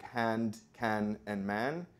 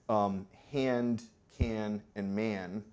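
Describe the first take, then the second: First: The vowel sounds the same as in ash. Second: The vowel before the nasal is raised. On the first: This is the Spanish-influenced dialect pronunciation. "speakers resist the raising before nasal, so the pronunciation sounds like" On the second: This is the typical American English pronunciation. "it's raised in the mouth. So you say"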